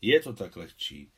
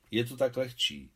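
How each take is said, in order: First: Put-on the officer echoing the boy, with a mild sigh; man's sighing echo. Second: Put-on the boy explaining life in the shared flat; boy's plain remark. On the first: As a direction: repeat "Je to tak lehčí" wistfully as a grown man. Vzdychl Afanasij Ivanovič. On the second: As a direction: say "Je to tak lehčí" matter-of-factly like a kid. Důvěrně se rozhovořil černooký Kolia. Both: A narrator's reading.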